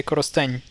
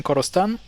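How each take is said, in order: First: Korosteny ending on a softened palatal N; soft N ending. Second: Korosten ending on a plain hard N. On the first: Teacher models Korosteny with a soft final N. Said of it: "it will become sound N". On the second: The learner's plain Korosten, hard N at the end. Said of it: "Instead of saying Korosten". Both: Shown as a demonstration.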